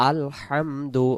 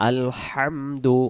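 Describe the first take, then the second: The two takes are said the same way.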